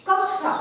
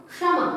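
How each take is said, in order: First: कक्षा said kak-sha with a clear k before ksha; कक्षा with both k sounds distinctly heard; clear double k. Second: क्षमा said with the k almost silent, like shama; क्षमा with the k whispered away; faint k in kshama. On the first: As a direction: say कक्षा, stopping fully on the first k. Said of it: "हम इसे कक्षा नहीं". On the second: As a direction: say क्षमा with a barely audible k. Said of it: "क का उच्चारण है लेकिन इतना अधिक धीमा है". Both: Shown as a demonstration.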